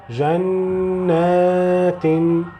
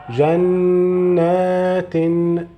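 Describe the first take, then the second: The two takes are said the same way.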